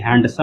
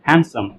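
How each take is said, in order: First: The d sound is pronounced. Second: The d sound is left out. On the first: The speaker calls it wrong. "ये हैंडसम नहीं है" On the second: The speaker calls it right. "डी को छोड़ के हैंडसम"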